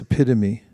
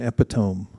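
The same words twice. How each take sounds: First: The word is pronounced differently from its spelling. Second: The word is pronounced the way it looks. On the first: The speaker calls it right. "It's epitome" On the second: The speaker calls it wrong. "there is no such thing as an epitome ... many people mispronounce it because of the way it looks"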